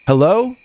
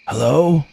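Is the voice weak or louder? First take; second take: louder; weak. First: It is said louder and steadier. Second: It is said weakly and quietly.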